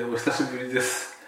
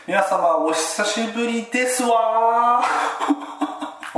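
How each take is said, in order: First: Said in the usual way. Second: Put-on high, slow prim rich-girl lilt; ojousama voice. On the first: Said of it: "ということで、". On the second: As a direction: drawl it like a haughty heiress. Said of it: "お嬢様言葉だと".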